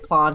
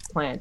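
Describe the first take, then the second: First: The word is said in a posh accent. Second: The word is said in a plain accent. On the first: This is how South Australians say it. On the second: This is how people elsewhere say it.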